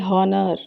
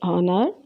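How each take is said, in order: First: The word begins with an audible H sound. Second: The word begins with a silent H. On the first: The speaker calls it wrong. "You're not supposed to say" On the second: The speaker calls it right. "Instead we say an honor"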